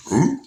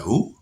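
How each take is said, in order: First: High, loud fake-innocent who; mock baffled who. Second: Said in the usual way. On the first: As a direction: pretend you've never heard the name. Playing dumb to the cop.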